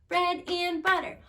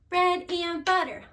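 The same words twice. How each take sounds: No difference in how they are said.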